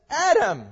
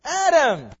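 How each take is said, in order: First: Calling out. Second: Louder call. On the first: God calling Adam out of hiding, a loud call. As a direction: call the name loud and high, a summons. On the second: God calling hidden Adam a second time, louder call. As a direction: call the name once more, louder and more insistent. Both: Pretend.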